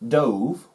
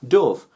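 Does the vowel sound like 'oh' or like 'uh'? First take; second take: oh; uh. First: The vowel is a long 'oh' sound, like 'drove'. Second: The vowel is a short 'uh' sound, like 'of'. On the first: The speaker calls it wrong. "not dove" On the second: The speaker calls it right. "like a bird"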